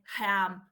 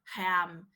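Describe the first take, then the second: The two takes are said the same way.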